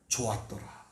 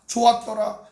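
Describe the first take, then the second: First: Low and soft; hushed, lowered quote; quiet pronouncement. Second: Higher, louder exclamation; raised, emphatic quote; emphatic pronouncement. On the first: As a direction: say it low, under the voice. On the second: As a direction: lift the voice and declare it. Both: Acted. Contrasting takes of God's words.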